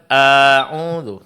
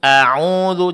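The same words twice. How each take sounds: First: The opening vowel is drawn out long. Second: The opening vowel is kept short. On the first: The speaker calls it wrong. "Jangan harakatnya terpanjangkan" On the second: The speaker calls it right. "a'udzu jangan"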